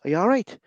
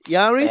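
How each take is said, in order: First: It is said in a worried, concerned tone. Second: It is said in a cheerful, smiling tone. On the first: The speaker is asking whether something is wrong. "there's a concern in your voice" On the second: It is a casual hello on walking into a room. "with a smile on your face"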